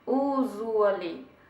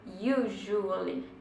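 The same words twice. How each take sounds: First: It starts with a plain 'oo' vowel. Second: It starts with a 'you' sound and 'zh'. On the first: The speaker calls it wrong. "Se você fosse falar aportuguesado" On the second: The speaker calls it right. "você vai fazer um you... som de J"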